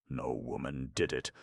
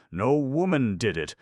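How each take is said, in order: First: Said in the usual way. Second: No woman did it! loud and high, woman hit hard; emphatic exclamation. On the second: A narrator's reading. Vance insisting to Markham, emphatic and loud. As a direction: proclaim it, stressing woman.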